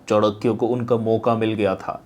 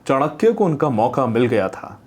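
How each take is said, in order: First: It is spoken with the mouth barely open. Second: It is spoken with the mouth fully open. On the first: The speaker calls it wrong. "मौका की जगह अपने मौका बोला और posture ऐसा मुंह पूरा ना खोल के" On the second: The speaker calls it right. "पूरा मुंह खोलिए।"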